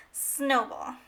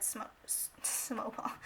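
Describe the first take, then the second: First: Said in the usual way. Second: Stumbled whisper. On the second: Real, not acted. Vlogger catching her own slip while adding numbers, whispered. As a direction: whisper "snowball" under the breath after the stumble.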